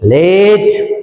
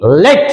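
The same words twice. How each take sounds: First: लेट with the e drawn out, like English late; long e. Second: लेट with a short, quick e. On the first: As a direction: stretch the e in लेट. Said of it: "तो वो हो जाएगा L A T E". (लेट लंबी खींची हुई ए के साथ) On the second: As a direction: say लेट fast, without stretching the e. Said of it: "ज्यादा खींचे नहीं इसको". (लेट छोटी ए के साथ, जल्दी) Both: Shown as a demonstration.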